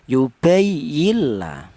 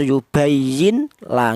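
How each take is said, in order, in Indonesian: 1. Bunyi n melebur sepenuhnya ke dalam bunyi l. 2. Bunyi n diucapkan dengan jelas sebelum l. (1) "Sudah huruf nun mati ini sudah langsung menyatu ke huruf lam ya" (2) "Tidak boleh dibaca idhar"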